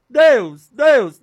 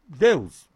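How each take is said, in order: First: High, loud repeated call; loud crying out. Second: Said in the usual way. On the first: Shown as a demonstration. Preacher tries out names for calling God, loud crying out. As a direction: cry the name out forcefully, twice. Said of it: "Não, não, é Pai em Criador". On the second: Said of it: "eu disse".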